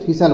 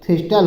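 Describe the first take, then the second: First: No t sound is heard in the middle. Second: A t sound is heard in the middle. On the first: The speaker calls it right. "टी silent कर दिया जाएगा तो थिसल बोला जाता है" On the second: The speaker calls it wrong. "वैसे जो बोलते हैं तो थिस्टल हो जाता है"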